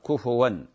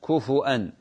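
First: The f takes a u vowel, no glottal stop. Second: The f takes a u vowel, then a glottal stop. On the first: "بضم الفاء" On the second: "بالهمز كفوا أن ضم الفاء مع بعدها همز"

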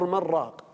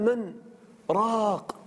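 First: The two words run together without a pause. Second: There is a brief pause between the two words. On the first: "وبعض القراء يصلها يقول من راق" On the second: "لكن السكتة هكذا تشعر بشدة الموقف"

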